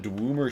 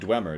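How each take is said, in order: First: The first vowel is an 'ooh' sound. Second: The first vowel is an 'eh' sound. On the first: The speaker calls it wrong. "where you got the ooh sound out of D W E" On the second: The speaker calls it right. "it's how it's supposed to be pronounced"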